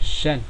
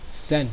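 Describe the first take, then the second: First: The word begins with an sh sound. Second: The word begins with an s sound. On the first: This is the central and southern regional pronunciation. "The central and southern way" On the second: This is the northern regional pronunciation. "the northern way pronunciation"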